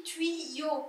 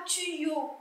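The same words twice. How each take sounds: First: Tuyau said slowly as "tui-yo", with a "ui" glide; correct pronunciation. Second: Tuyau said "tu-yo", with a plain u in the first syllable; wrong pronunciation. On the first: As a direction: stretch tuyau into "tui" plus "yo". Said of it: "je dis tuyau". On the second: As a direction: say tuyau as "tu-yo", without the "ui" glide. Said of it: "je dis pas tuyau". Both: Shown as a demonstration.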